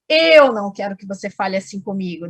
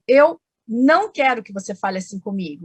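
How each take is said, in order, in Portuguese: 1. A palavra eu é falada com mais força. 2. A palavra não é falada com mais força. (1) "Eu marquei o eu, ficou mais forte" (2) "eu marquei o advérbio"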